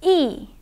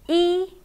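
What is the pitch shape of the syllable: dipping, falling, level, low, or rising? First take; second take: falling; level. First: The pitch falls from high to low. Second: The pitch stays high and level. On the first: "E is a falling tone" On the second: "E is a high flat tone"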